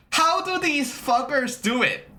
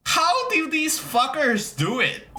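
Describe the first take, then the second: First: Said in the usual way. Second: Exasperated high. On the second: Real, not acted.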